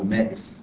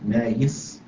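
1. الحرف الأوسط همزة. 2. الحرف الأوسط صوت ياء. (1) "يقال له مائس بالهمس" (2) "أما إذا أدلت الهمس قلت مائس"

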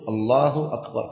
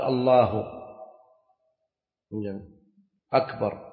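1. تتصل الكلمتان دون وقفة. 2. توجد وقفة بين الكلمتين. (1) "لا بد أن يأتي بها مرتبا" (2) "لا بد أن يكون أن يأتي بها مواليا، فلو قال الله أكبر لم تصح"

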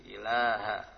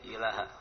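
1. Vokal setelah l dipanjangkan. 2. Vokal setelah l pendek. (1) "Ilaha panjang sedikit" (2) "jangan sampai ilaha"

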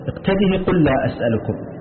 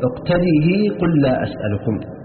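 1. تُثبَت الهاء في الآخر مكسورة من غير إشباع. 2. تُثبَت الهاء في الآخر مكسورة مع إشباع الكسرة. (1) "بإثباتها مكسورة من غير إشباع وصلا" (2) "بإثباتها مكسورة مع الإشباع وصلا"

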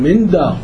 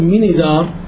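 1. لا تليها أي حركة. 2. تليها كسرة قصيرة. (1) "لا بنقول من دار" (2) "ما بنقول من دار"

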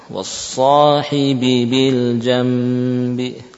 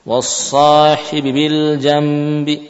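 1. Dibaca pelan, setiap huruf yang berulang dibunyikan penuh. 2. Dibaca cepat, huruf yang berulang dibunyikan singkat. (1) "harusnya pelan-pelan, satu harokat, satu harokat" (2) "terbaca dengan kurang sempurna, mungkin harokatnya kurang. ... misalkan seperti itu"

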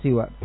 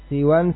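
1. Kata ini berakhir dengan vokal, tanpa n. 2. Kata ini berakhir dengan bunyi n. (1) "ataupun tanpa tanwin" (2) "boleh dengan tanwin"

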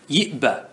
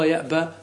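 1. تُنطق السابقة بحركة 'i'. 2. تُنطق السابقة بحركة 'a'. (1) "ومثال الياء وهذا هو موضع الشاهد" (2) "والأفصح أن تفتح"

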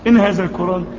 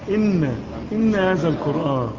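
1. النون في الكلمة الأولى مخففة. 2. النون في الكلمة الأولى مشدّدة.

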